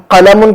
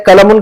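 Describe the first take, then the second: First: कलमुन with q from back of throat; deep qaf. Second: कलमुन with a plain front k; wrong kaf. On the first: Teacher contrasting meanings for students, deep back q. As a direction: say the first कलमुन as "qalamun". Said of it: "कलमुन के बजाय कलमुन". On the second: Teacher showing the meaning-changing slip, plain k. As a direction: say the second कलमुन as "kalamun", k not q. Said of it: "कलमुन के बजाय कलमुन कहेंगे". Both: Shown as a demonstration.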